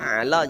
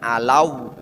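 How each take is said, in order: First: The syllable ends plainly without a w glide. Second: The syllable ends with an added w glide. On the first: The speaker calls it right. "hilangkan wawunya" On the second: The speaker calls it wrong. "jadi bukan alau ada wawunya"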